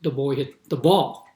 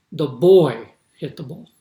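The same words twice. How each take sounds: First: Put-on "ball" lifted and rising at the end, "boy" left light; stress on ball. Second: Put-on "boy" punched loud with a rising lift; stress on boy. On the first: Lecturer contrasting emphasis by moving the stress onto "ball". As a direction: lean on "ball", not "boy". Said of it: "or is it". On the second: Lecturer showing students emphasis on the word "boy". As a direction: hit the word "boy" hard, rest of the sentence lighter. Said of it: "if you want to emphasize something". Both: Shown as a demonstration.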